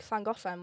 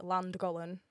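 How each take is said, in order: First: Llangollen with a Welsh hissed ll; Welsh pronunciation. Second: Landgollen with a plain English L; English mispronunciation. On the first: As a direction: say Llangollen the Welsh way, breathy lateral ll. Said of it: "English people call it Landgollen 'cause they can't pronounce". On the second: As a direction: say Landgollen anglicised, Land at the front. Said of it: "English people call it Landgollen". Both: Shown as a demonstration.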